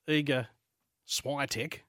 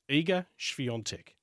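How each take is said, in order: First: The surname follows simplified English sounds. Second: The surname follows its native Polish sounds. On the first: The speaker calls it wrong. "It's not Iga Świątek, which is the easy thing to say" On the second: The speaker calls it right. "There you go"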